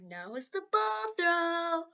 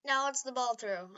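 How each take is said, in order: First: Slow, higher, drawn-out announcement; mock-epic announcer voice, slow and high; dramatic announcer. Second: Said in the usual way. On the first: Shown as a demonstration. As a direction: stretch it out like a grand announcer. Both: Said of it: "I'm not gonna say it like I did".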